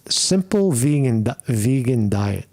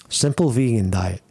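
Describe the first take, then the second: First: Tripping over the words, restarting; stuttering. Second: Said in the usual way. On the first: Real, not acted. Vlogger stumbling over diet advice to viewers, real stutter. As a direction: stumble and restart mid-word. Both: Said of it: "Excuse me, I'm stuttering".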